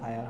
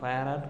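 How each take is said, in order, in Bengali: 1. শেষে কোনো যোগ করা সিলেবল নেই। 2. শেষে একটি যোগ করা 'ar' সিলেবল আছে। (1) "ফায়ার হয়" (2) "ফায়ার আর উচ্চারণটা হয় না"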